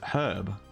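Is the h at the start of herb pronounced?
yes. The word begins with an audible h sound. The speaker calls it right. "We actually pronounce the beginning of that word"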